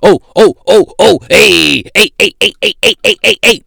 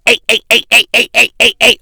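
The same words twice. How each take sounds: First: Loud, much higher yelping oh oh, then hey hey hey; loud mock yelping passenger; mock rowdy passenger. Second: Loud, high repeated hey hey, hammed up; mock rowdy heckling passenger. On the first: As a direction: ham up an obnoxious guy yelling on a plane. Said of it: "talking about some". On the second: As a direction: imitate a rowdy guy acting up on a plane. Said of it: "on the plane, acting dumb".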